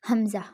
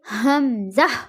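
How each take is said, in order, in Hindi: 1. शब्द "hamza" रोज़मर्रा के आम तरीके से बोला गया है। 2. शब्द "hamza" सावधानी से और सटीक तरीके से बोला गया है। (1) "बहुत ज़्यादा लोग जो अ, हमजा बोलते हैं ना, वो कहते हमजा, हमजा नहीं है" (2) "ये हमजा"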